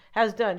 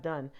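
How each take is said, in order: First: HAS in "has done" hit firmly, then falling; stress on HAS. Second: Said in the usual way. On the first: Shown as a demonstration. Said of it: "not done, has done". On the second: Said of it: "not done".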